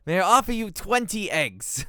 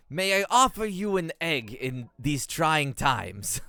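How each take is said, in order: First: Higher, louder hammed-up offer; sitcom quote parody. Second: Slow, loud, hammed-up sitcom delivery; mock-grand offer, drawn out; quoting a sitcom line. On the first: Gamer reworks the sitcom quote for twenty eggs, loud and hammed-up. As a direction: ham it up like the sitcom line. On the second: Gamer quoting Always Sunny to the queen, hammed-up and slow. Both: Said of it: "what's the quote from Always Sunny".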